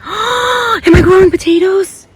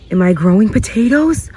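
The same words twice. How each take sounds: First: Gasp, then a very high thrilled question; can't believe your luck; gasping squeal. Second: Said in the usual way. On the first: Real, not acted. Asks again in shock.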